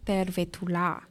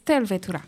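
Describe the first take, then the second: First: The stress is not on the first syllable. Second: The stress is on the first syllable. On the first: The speaker calls it wrong. "It's not Tervetula" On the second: The speaker calls it right. "the first syllable in the word is always stressed"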